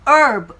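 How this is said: The r in the middle is sounded. "미국 영어에서는 이 R에 중간에 들어가 있는 이 R 발음을 하죠"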